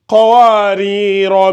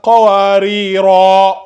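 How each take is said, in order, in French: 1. La voyelle finale reste courte. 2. La voyelle finale est allongée. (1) "on ne l'allonge pas" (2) "on marque une pause"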